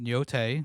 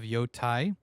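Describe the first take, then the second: First: The last syllable sounds like 'tay'. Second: The last syllable sounds like 'tie'. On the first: The speaker calls it right. "You pronounce it Yotei" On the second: The speaker calls it wrong. "instead of Yotai, which is what I thought it was"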